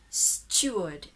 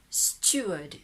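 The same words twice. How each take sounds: First: It is said with a British accent. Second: It is said with a British accent.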